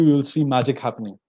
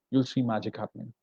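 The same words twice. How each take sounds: First: Said in the usual way. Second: "You'll see magic happening" dropped much softer, almost confiding; hushed repeat. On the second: Real, not acted. Teacher quietly confiding a promise to students, much softer. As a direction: let the promise sink in softly.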